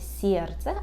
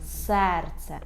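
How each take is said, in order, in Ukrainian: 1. S пом'якшується, і голосний звучить як 'ye'. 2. S залишається твердим, а далі йде простий 'e'. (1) "ніколи не можна сказати «сєрце»" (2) "а повинно бути «серце»"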